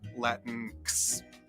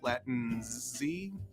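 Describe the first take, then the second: First: The word ends with a ks sound. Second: The word ends with a z sound. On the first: "with the K S sound like in English fix" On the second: "pronounced as a Z, like the first X in Xerox"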